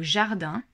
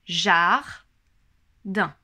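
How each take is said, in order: First: Said in the usual way. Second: "Jardin" split into "jar-din", louder, each syllable apart; syllables counted out. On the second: Shown as a demonstration. Teacher shows parents how to count syllables, "Jardin" split slowly. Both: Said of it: "compter le nombre de syllabes".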